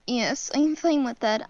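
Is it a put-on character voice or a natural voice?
natural. It is said in the speaker's natural voice.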